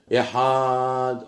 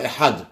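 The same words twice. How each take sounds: First: "Ehad" with the A held very long on a level note; wrongly lengthened vowel. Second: "Ehad" short, ending cleanly on the D; nothing added. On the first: Teacher showing the error, "Ehad" stretched out. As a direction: drag it out: "Ehaaaad", as if adding an aleph. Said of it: "on rajoute un aleph". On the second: Teacher giving the correct form, "Ehad" with clean ending. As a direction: say "Ehad" with a brief A and no vowel after D. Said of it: "il convient de ne pas rajouter trop". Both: Shown as a demonstration.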